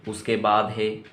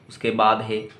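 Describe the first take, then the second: No difference in how they are said.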